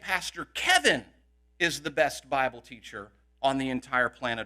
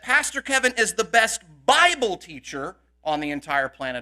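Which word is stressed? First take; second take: Kevin; Bible. First: The word Kevin carries the main stress. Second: The word Bible carries the main stress. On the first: He, not the other pastors, is the best. "we know that Pastor Henry and Pastor Mallet aren't" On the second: He is best only at teaching the Bible. "may not be able to teach anything else"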